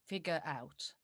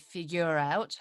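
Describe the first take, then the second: First: It is said in a British accent. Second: It is said in an American accent. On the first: "in British accent, it's supposed to be" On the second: "The first one I still say with American accent"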